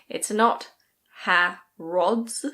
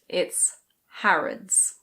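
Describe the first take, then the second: First: The last vowel is a full vowel. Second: The last vowel is a weak schwa. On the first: The speaker calls it wrong. "It's not" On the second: The speaker calls it right. "The last vowel is a schwa"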